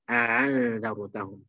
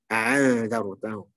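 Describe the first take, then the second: First: The second glottal stop is softened toward a vowel. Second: The same.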